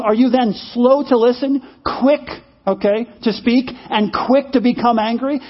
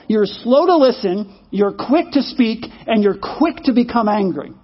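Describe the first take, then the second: First: Said in the usual way. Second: Slowed down, each phrase spaced out; slow, deliberate recital. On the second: Shown as a demonstration. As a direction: read the verse back slowly. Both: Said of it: "Is that kind of where you are?".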